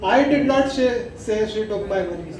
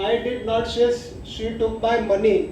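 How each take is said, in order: First: The word I carries the main stress. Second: The word money carries the main stress. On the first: Someone else said it. "आई पे अगर जोर देते हैं" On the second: Something other than money was taken. "अगर मैं मनी के ऊपर concentrate करूँ"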